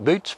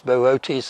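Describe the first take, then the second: First: The two o's merge into one vowel sound. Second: The two o's are sounded as separate vowels. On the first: The speaker calls it wrong. "A lot of people pronounce it Boots" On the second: The speaker calls it right. "it has to be pronounced separately"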